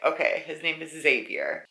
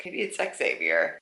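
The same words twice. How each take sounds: First: Xavier said "ZAY-vee-er"; first pronunciation. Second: Xavier said "ex-AY-vee-er"; alternative pronunciation. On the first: Reader guessing the name, Xavier as "ZAY-vee-er". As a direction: start Xavier with a plain Z sound. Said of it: "I was like". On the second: Reader second-guessing the name, Xavier as "ex-AY-vee-er". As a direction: sound out the X at the start of Xavier. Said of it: "But then I was like". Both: Shown as a demonstration.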